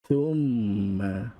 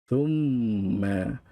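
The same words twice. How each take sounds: The two takes are said the same way.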